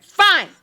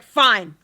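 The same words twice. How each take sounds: First: "Fine." pitched high and loud, falling; mock loud retort. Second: Said in the usual way. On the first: Girlfriend firing "Fine." back at her boyfriend, high and loud. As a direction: snap "Fine." back, hammed-up. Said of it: "And she's like". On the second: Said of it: "And he's like".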